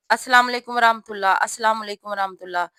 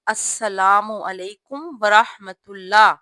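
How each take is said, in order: First: Fast mock, السلام علیکم ورحمۃ اللہ slurred together; imitating rushed salaam. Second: Slow, every word of السلام علیکم ورحمۃ اللہ distinct; calm clear salaam. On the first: Teacher imitating sisters rushing the salaam, fast. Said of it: "اتنی تیزی سے". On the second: Shown as a demonstration. Teacher showing sisters the calm correct salaam, slow. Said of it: "سکون کے ساتھ، آرام سے اور واضح".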